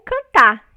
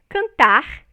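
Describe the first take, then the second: First: The final R is not pronounced. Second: The final R is a velar R. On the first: "sem o R" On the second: "como é pronunciado no Rio de Janeiro"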